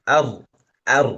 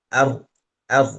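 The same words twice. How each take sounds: Both takes have the same delivery.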